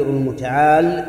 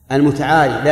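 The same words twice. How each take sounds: First: "المتعال" ending on the lam, no final ee; final ya dropped. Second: "المتعالي" ending in a long ee, louder; original final ya restored. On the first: Teacher quoting the verse as an example, final ya dropped. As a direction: stop "المتعال" on the l after the long aa. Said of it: "لكن حذفت الياء للتخفيف". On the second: Teacher giving the word's original form, final ya pronounced. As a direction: sound the ya clearly at the end of "المتعالي". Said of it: "أصلها". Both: Shown as a demonstration.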